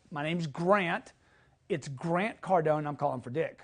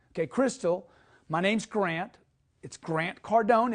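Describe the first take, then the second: First: Slow demo. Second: First names only, easy and direct; a relaxed, familiar call opening; demo greeting. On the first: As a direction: take it slowly and calmly. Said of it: "If you wanna add a second name". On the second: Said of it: "I would use the gatekeeper's first name". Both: Shown as a demonstration.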